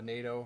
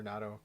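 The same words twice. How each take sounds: First: "nato" said as NAY-toh; long AY in the first syllable of "nato"; first pronunciation. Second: "nato" said as NAT-oh; short A, as in cat, in "nato"; alternative pronunciation. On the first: Guitarist offering one reading of a wood's name, "nato" as NAY-toh. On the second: Guitarist unsure of a wood's name, "nato" as NAT-oh. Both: Shown as a demonstration. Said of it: "not really a hundred percent sure how to pronounce it".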